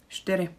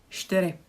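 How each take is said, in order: The two takes are said the same way.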